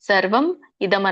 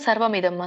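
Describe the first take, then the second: First: The two words are said separately. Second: The two words are run together.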